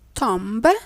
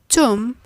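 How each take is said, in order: First: A b sound is heard at the end. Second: No b sound is heard at the end. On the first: The speaker calls it wrong. "That's not exactly the expected reply from you" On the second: The speaker calls it right. "The B is a silent letter"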